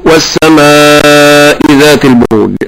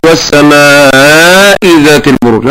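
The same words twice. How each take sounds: First: والسماء with an evenly held long "aa"; correct madd demo. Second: والسماء with the long "aa" distorted; wrong madd demo. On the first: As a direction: chant والسماء with a steady measured stretch. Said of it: "كما أقول". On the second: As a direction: mimic a mistaken wavering stretch in والسماء. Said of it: "هذا خطأ". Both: Shown as a demonstration.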